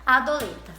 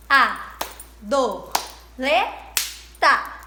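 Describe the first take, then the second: First: Said in the usual way. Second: "A, do, le, ta" in separate loud beats; syllable by syllable. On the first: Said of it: "quantas sílabas tem a palavra adoleta". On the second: Shown as a demonstration. Teacher counting syllables for pupils, "A, do, le, ta" one beat each. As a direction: punch out "A, do, le, ta" with gaps between. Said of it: "fazendo a divisão silábica".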